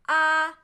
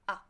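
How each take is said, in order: First: The pitch stays level and does not change. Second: The syllable is short and light, without contour. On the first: "First tone, flat" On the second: "light tone"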